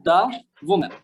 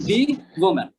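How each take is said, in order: First: "The" with a schwa, like "thuh". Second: "the" with a long ee vowel; "the" as "dee". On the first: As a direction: say "The" as "da" before "woman". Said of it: "এটা ছিল audio বুকের মধ্যে". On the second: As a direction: say "the" as "dee" before "woman". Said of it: "মুভিটা দেখেছি বা সিরিজটা দেখেছি তখন বলছে". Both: Shown as a demonstration.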